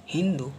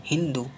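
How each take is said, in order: Both takes have the same delivery.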